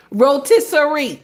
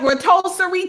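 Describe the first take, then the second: First: "Rotisserie" said as "roh-TISS-uh-ree"; corrected pronunciation. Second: "rotisserie" said as "ruh-TOH-suh-ree"; mispronounced rotisserie. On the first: Shown as a demonstration. Host correcting herself for teasing viewers, "Rotisserie" as roh-TISS-uh-ree. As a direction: sound out "Rotisserie" with TISS in the middle. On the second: Real, not acted. Host raving about glistening chicken, "rotisserie" mispronounced as ruh-TOH-suh-ree. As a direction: swap the middle of "rotisserie" to a TOH sound. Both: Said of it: "You know I said it wrong".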